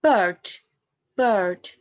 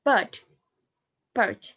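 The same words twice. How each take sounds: First: "bird" with the R clearly sounded; rhotic pronunciation. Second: "bird" with the R dropped; non-rhotic pronunciation. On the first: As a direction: say "bird" with a strong R. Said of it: "In the erotic accent, we use". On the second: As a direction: say "bird" without any R. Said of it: "But in non-erotic accent, we use". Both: Shown as a demonstration.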